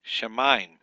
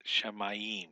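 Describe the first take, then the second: First: Shemaim said louder as sha-maim; correct two-syllable shemaim. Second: Shemayim slowed into she-ma-yim; wrong three-syllable shemayim. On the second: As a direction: stretch out the wrong shemayim slowly. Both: Shown as a demonstration. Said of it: "not shemayim".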